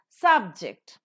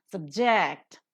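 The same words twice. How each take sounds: First: SUBject, loud full "Sub", lighter "ject"; stress on first syllable. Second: SubJECT, reduced "Sub", strong "ject"; stress on second syllable. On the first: Teacher demonstrating the noun for students, "Subject" stressed on SUB. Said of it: "a noun". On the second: Teacher demonstrating the verb for students, "Subject" stressed on JECT. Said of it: "a verb". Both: Shown as a demonstration.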